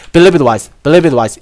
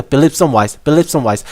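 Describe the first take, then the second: First: "it" unstressed and melted into believe, "believe it wise" flowing as one; weak it. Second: "some" said fully and stressed in "believe some wise". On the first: Teacher showing students the weak "it" version, unstressed. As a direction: let "it" fade into a light t. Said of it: "강세가 훨씬 약해지기 때문에". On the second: Teacher showing students the stressed version, stressing "some". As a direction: hit "some" clearly between believe and wise. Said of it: "이러면은 약간 강세가 들어가죠". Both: Shown as a demonstration.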